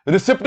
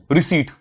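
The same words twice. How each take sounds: First: रिसिप्ट with the p sounded, ri-sipt; wrong pronunciation. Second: रिसीट said as ree-seet, no p sound at all; correct pronunciation. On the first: Teacher showing students the wrong रिसिप्ट, p pronounced. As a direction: say रिसिप्ट sounding the p, the common mistake. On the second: Teacher modelling the right रिसीट for students, p silent. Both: Shown as a demonstration. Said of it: "पी silent होता है".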